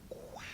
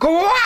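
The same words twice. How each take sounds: First: It is said quietly. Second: It is said loudly.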